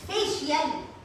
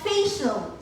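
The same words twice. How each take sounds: First: It is said with an added y sound. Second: It is said without an added y sound. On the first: The speaker calls it wrong. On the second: The speaker calls it right.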